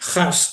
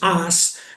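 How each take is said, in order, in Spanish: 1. El nombre se pronuncia a la manera alemana. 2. El nombre se pronuncia a la manera francesa. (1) "el origen es alemán, mm, holandés, Haas sería" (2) "se pronuncia en francés es as"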